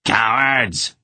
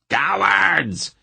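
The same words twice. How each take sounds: First: Moderate angry shout of Cowards!. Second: Cowards! much higher, a furious shrill repeat; furious shout. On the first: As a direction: yell Cowards! at the fleeing men, first time. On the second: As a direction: scream Cowards! again, pitch way up. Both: A narrator's reading. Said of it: "he shouted at his hirelings".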